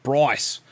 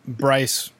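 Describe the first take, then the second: First: Imitated Aussie pronunciation of Bryce; put-on Australian vowel in Bryce; Australian accent. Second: Said in the usual way. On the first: Shown as a demonstration. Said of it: "when you have an Australian accent".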